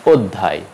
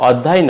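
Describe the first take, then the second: First: অধ্যায় begun with rounded "o"; closed first vowel in অধ্যায়; correct pronunciation. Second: অধ্যায় begun with open "aw"; wrong pronunciation. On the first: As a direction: say অধ্যায় as "od-dhay". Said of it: "উচ্চারণ হবে". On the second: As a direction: say অধ্যায় as "awd-dhay". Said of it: "অধ্যায় নয়". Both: Shown as a demonstration.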